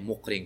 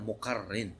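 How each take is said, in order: First: The name has two syllables, with no middle vowel. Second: The name has three syllables, with a doubled r. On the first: The speaker calls it wrong. "Некоторые Мукрин говорят, неправильно" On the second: The speaker calls it right. "Правильно, Мукаррин"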